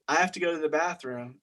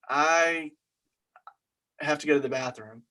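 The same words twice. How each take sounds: First: It is said in a plain, neutral way. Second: It is said in an awkward, hesitant way.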